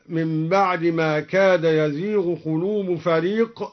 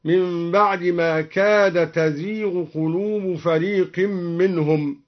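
First: Said in the usual way. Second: تزيغ opened with a "t", "tazīghu"; feminine reading. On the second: Shown as a demonstration. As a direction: recite تزيغ with initial ta, not ya. (تزيغ بتاء التأنيث) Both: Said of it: "قرأها بالتأنيث هكذا".

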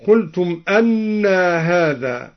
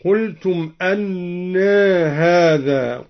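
First: Said in the usual way. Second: أنى with final a tilted lightly towards e; slow recitation, أنى as "annɛɛ"; taqlil on أنى. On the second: Shown as a demonstration. Teacher showing al-Duri's reading, slight tilt on أنى. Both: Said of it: "قلل الدوري لفظ أنى هكذا".

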